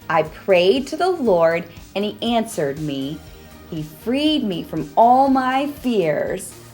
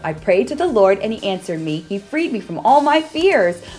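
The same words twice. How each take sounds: First: It is said at a normal pace. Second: It is said as fast as possible.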